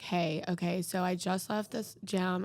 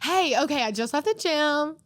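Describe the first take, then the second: First: The voice sounds flat and unhappy. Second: The voice sounds cheerful and lively. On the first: The message is being dictated as text. "she doesn't even sound happy to talk to me" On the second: The message is being sent as a voice recording. "if it's an audio"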